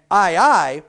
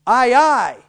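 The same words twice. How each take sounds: First: Said in the usual way. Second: Pirate aye aye. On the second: Shown as a demonstration. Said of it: "the next one is".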